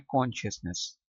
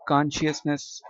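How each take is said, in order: First: British "कॉन्शियसनेस" starting with a rounded kon; British-accent "कॉन्शियसनेस"; British pronunciation. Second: American "कॉन्शियसनेस" starting with an unrounded kahn; American-accent "कॉन्शियसनेस"; American pronunciation. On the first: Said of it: "British accent में". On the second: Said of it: "American accent में". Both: Shown as a demonstration.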